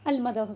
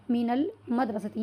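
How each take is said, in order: First: "अल मदरसतु" with a clear 'al' at the start; alif and lam both sounded. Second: Slow "मिनल मदरसती", 'min' running into the 'l'; alif dropped, linked. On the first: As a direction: voice both the 'a' and the 'l' in "अल मदरसतु". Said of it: "अलिफ का भी sound है और लाम का भी sound है". ("अल मदरसतु" में अलिफ और लाम दोनों बोलकर) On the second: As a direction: join "मिनल" as one word with no separate 'al', then "मदरसती". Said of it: "इसका साउंड ख़त्म कर दिया गया है". ("मिनल मदरसती" धीरे, अलिफ गिराकर मिलाते हुए) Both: Shown as a demonstration.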